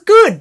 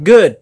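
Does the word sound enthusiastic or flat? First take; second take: enthusiastic; flat. First: The word is said with excited, exclamatory energy. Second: The word is said flatly, with a final fall. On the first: The movie was really liked. "you were like, it was good! Exclamation mark" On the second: The movie was merely okay. "I was like, good, period"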